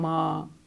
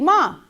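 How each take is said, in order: First: The word is said in a drawn-out, pleading tone. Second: The word is said in a cheerful, upbeat tone. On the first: He wants something. "But when he wants something" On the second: He doesn't want anything. "If you don't want nothing, you upbeat"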